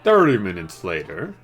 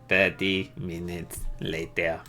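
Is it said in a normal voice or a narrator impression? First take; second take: normal voice; narrator impression. First: It is said in a normal voice. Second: It imitates the SpongeBob narrator's voice.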